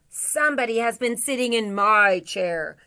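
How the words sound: It is said in a big, deep voice. "in a great big voice"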